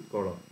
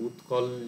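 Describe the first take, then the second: First: The L is made with the tongue curled back. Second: The L is a plain, flat-tongued L.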